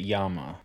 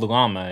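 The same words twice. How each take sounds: First: The word is said with a Spanish pronunciation. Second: The word is said with an English pronunciation. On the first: "in Spanish speaking countries, they pronounce it llama" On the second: "it's called llama in English"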